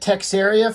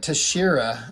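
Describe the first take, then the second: First: The name begins with a 'tex' sound. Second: The name begins with a 'tash' sound. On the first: This is the pronunciation long used by the speaker. The speaker calls it wrong. "I've been saying it Texaria forever" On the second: This is how the artist says his own name. The speaker calls it right. "I think that might be how you actually pronounce it"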